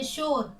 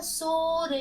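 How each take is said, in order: First: Said in the usual way. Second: शोर with long शो, separate र; शोर spelt aloud as शो... र; sounded out. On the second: Shown as a demonstration. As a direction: break शोर into its two letters. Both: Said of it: "इन शब्दों को दोहराते हैं".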